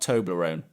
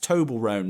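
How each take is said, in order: First: It is said as one blended word. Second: It is said like two names, Tobel Rohn. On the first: The speaker calls it wrong. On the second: The speaker calls it right. "It's actually named after Doctor Rohn"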